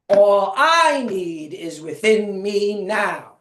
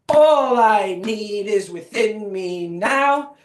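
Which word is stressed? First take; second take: I; now. First: The stress is on "I". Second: The stress is on "now".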